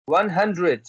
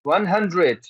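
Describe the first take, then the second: No difference in how they are said.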